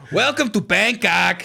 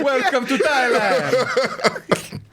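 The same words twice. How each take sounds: First: Slow, drawn-out mock Thai accent; hammed-up Thai accent, stretched slowly. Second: Put-on Thai accent. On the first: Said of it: "Do you want me to say it like that?". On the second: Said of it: "that's not a Thai accent either".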